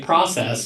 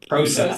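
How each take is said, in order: First: It is said in the speaker's usual non-Canadian way. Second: It is said the way Canadian television says it.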